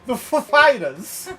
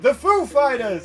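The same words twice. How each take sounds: First: The stress falls heavily on Fighters. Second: The stress falls mainly on Foo. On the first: The speaker calls it wrong. "he went the Foo Fighters" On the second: The speaker calls it right. "instead of saying the Foo Fighters"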